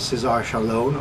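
The name is said with English pronunciation. "which you would know here as"

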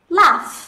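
It is said in a British accent.

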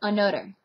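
The middle consonant is a 'd' sound. "another becomes another"

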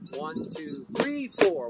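The numbers three and four are stressed. "Now I'm going to go to the 3, 4. I'm going to say it louder"

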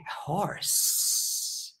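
It is said in a snake voice.

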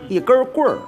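Beijing accent with an r-coloured ending. "北京是带儿化音"

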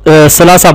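The word begins with an s sound. This is the form a written translation gives. The speaker calls it wrong. "अगर तर्जमा आप देखें तो"

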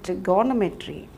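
It is said with an Indian pronunciation. "in some part of India, they say trigonometry"

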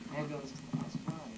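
It is said in a shy tone.

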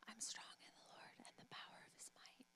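It is whispered very quietly.

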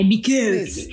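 It is said in a strange Italian-style accent. "è because ... con questo accento un po' strano"

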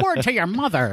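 It is said in a 1920s gangster voice.

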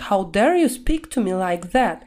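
It is said with strong, agitated emotion. The speaker is genuinely outraged. The speaker calls it right. "Опять же, эмоционально произносим"

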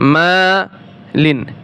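The word is broken into separate syllables. "আমি ভেঙ্গে ভেঙ্গে বলছি"

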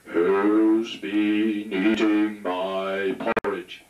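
The voice is very deep. The daddy bear is speaking. "the daddy bear had a very deep voice"

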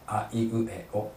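The vowels are short, clipped and separate. This is how a native Japanese speaker says them. The speaker calls it right. "短く、あまり口を大きく開けないで"

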